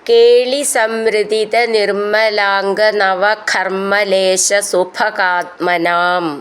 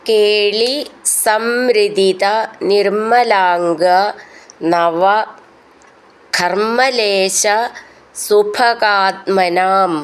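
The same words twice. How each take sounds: First: The words are joined smoothly without breaks between them. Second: The words are said separately with breaks between them.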